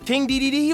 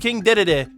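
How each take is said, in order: First: Each syllable has an 'ee' vowel. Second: Each syllable has an 'ah' vowel. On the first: This is how the speaker has always said it. "Have I been saying D D D wrong?" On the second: This is how other people say it. "the guy who did the video kept saying day day day or da da da"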